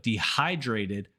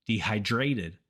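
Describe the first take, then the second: First: Dehydrated stressed on HY; de-HY-drated, punch the second syllable of dehydrated; correct word stress. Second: Dehydrated wrongly stressed on DRA; de-hy-DRA-ted, the learner's mistake in dehydrated; misplaced word stress. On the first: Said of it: "So instead of dehydrated". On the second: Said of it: "many Spanish speakers say". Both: Shown as a demonstration.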